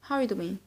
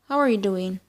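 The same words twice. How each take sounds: First: It is said very fast. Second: It is said at a normal, careful pace.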